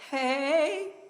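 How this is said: The voice rises at the end.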